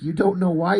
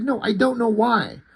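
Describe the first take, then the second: First: "You don't know why?" raised and rising at the end; incredulous question. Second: "No, I don't know why." pitched high, falling at the end; exasperated denial. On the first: She challenges his "You don't know why?", incredulous and questioning. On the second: He answers her with "No, I don't know why.", exasperated. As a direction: insist "No, I don't know why." in a mock quarrel. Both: Retold or imitated.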